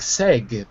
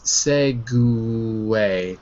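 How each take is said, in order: First: The word ends on the G with no vowel. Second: The word ends with a vowel after the G. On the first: The speaker calls it wrong. "that looks like seg, but it's not" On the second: The speaker calls it right. "It's segway"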